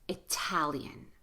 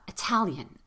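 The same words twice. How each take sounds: First: The first syllable has a full vowel. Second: The first syllable is rushed to a quick uh. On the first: "We say Italian" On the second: "it's more like Italian because that's an unstressed syllable. So really rush that first syllable, make it an uh"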